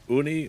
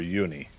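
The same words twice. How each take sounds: First: The word begins with a plain 'oo' vowel. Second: The word begins with a 'you' sound. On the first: "with an oo" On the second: "or a u"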